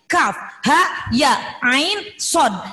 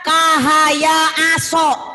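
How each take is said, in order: First: Each letter is read by its full name. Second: Each letter is read as a short syllable. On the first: The speaker calls it right. "Padahal ini kaf, ha, ya, ain, sod" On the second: The speaker calls it wrong. "Kalau tidak tahu huruf asli hijaiyah, ini akan dibaca kahaya aso"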